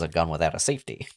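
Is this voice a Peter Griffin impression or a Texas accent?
Texas accent. It is spoken in a Texas-style accent. The speaker calls it wrong. "that's I'm doing the Texas voice"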